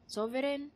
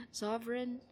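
First: "Sovereign" in three full syllables, so-ve-ren; "Sovereign" as so-ve-REN, lifted; corrected Tagalog-accented pronunciation. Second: "sovereign" squeezed to two syllables, SOV-ren; mistaken pronunciation. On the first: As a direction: sound every vowel in "Sovereign", raised and Tagalog-accented. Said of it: "there we go". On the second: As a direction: say "sovereign" without its middle vowel. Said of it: "nope, that's not how you say it". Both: Shown as a demonstration.

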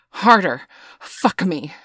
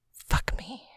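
First: Loud, high cry of urging; scream. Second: Whispered urging, lifting at the end. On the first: Woman to her lover mid-passion, screaming. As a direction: cry out, starting loud and high, then falling. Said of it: "she screams". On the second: Woman to her lover by the tree, whispering. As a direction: whisper it close to the listener. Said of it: "whispers to him". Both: A narrator's reading.

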